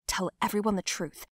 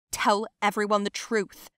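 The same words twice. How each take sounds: First: Said in the usual way. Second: Louder, angry insistence; heated, emphatic order; forceful demand. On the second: Acted. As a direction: demand it loudly in the heat of a fight. Repeated demand in heated fight.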